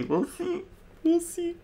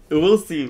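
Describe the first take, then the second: First: High soft teasing squeak. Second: Said in the usual way. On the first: Real, not acted. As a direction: tease it in a tiny voice.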